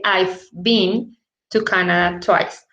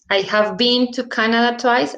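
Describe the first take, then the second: First: The words 'I have' are contracted to 'I've'. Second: The words 'I have' are said in full.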